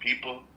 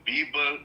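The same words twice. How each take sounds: First: The first sound is a voiceless P. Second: The first sound is a voiced B. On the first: The speaker calls it right. "instead of people" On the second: The speaker calls it wrong. "It would be beast with a B"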